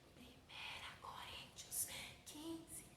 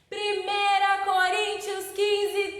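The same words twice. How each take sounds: First: It is spoken very quietly. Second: It is spoken very loudly. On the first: "falando bem baixinho" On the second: "falando bem alto"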